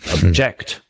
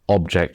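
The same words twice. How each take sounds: First: The stress is on the second syllable. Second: The stress is on the first syllable. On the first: It is the verb. "the verb, stress on the second" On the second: It is the noun. "stress on the first"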